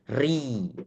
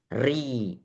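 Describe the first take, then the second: Both takes have the same delivery.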